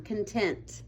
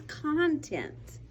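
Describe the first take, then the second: First: "Content" with stress on the second syllable, con-TENT; "Content" corrected to con-TENT. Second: "Content" with stress on the first syllable, CON-tent; "Content" mispronounced as CON-tent on purpose; wrong stress. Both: Shown as a demonstration. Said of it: "I said it wrong".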